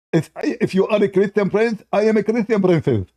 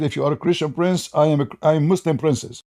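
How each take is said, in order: First: Mock girl voice, higher; girly voice. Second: A hint of a mocked girl; mild girly voice. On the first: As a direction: tease him as a simpering girl. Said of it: "you start speaking like a girl". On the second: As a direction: retell it lightly in a girl's tone. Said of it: "He said".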